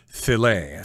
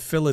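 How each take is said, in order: First: It is said with the American French-style pronunciation. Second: It is said the way people in England say it. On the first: "in America, I guess we use the French pronunciation filet" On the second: "I think they say fillet in England there"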